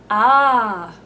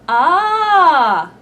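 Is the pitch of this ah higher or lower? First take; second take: lower; higher. First: The vowel is held at a lower pitch. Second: The vowel is held at a higher pitch.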